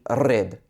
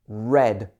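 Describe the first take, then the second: First: The r is rolled with a trill. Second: The r is smooth with no trill. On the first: The speaker calls it wrong. "it would not be" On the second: The speaker calls it right. "it would be"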